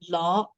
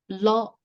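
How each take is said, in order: First: The pitch starts low and rises. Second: The pitch stays high throughout. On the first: It means wax or candle. "symbolizes the low rising tone" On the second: It means hit. "the high tone of the word"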